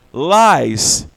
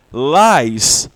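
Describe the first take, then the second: First: "Lies" said flat as "las", vowel cut short; a quick slip on "Lies" before the self-correction; first try, corrected. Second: "Lies" with a full "ai" diphthong, like "lice"; corrected pronunciation. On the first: Teacher slips on the plural of louse, then says "não": "Lies" said as "las". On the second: Teacher repeats the plural of louse correctly after her slip: "Lies" said clearly as "lais". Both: Shown as a demonstration. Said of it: "Não".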